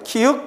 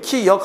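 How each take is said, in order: First: The second syllable is said as 'eut'. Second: The second syllable is said as 'yeok'. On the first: The speaker calls it right. "명칭은 키윽이야" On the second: The speaker calls it wrong. "키역 하면 안 돼"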